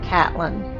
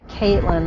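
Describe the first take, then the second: First: The first syllable sounds like 'cat'. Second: The first syllable sounds like 'Kate'. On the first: The speaker calls it right. "they pronounce it Catlin" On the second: The speaker calls it wrong. "they don't pronounce it Caitlin"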